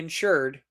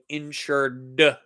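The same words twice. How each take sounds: First: The word ending is said plainly and blended in. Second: The -ed ending is exaggerated and sounded out clearly. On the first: The speaker calls it wrong. "Don't say insured" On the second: The speaker calls it right. "say insured when you when you say see that word"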